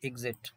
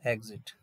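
First: एग्जिट as "ig-zit"; short-i first vowel. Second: एग्जिट as "eg-zit", falling; e first vowel. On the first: Teacher giving the alternative after dictionary audio, एग्जिट as "ig-zit". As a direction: give एग्जिट its other sound, opening on "i". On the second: Teacher repeating after the dictionary audio, एग्जिट as "eg-zit". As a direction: echo एग्जिट with an opening "e". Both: Shown as a demonstration. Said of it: "दो, दो sound है".

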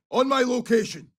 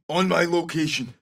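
First: Higher-pitched squad callout; urgent rallying call. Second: Said in the usual way. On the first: Acted. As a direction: call them over with raised pitch. Two takes of squad callout.

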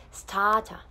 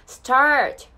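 First: "start a" with a plain long "ah", no R; open, R-less "start a"; no curled R. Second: "start" with a strong American R, loud; exaggerated rhotic "start"; curled R. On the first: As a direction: say "start a" as "stah-ta". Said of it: "あーで大丈夫です。". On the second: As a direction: curl the tongue hard on the R in "start". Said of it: "巻かないでくださいね。". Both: Shown as a demonstration.

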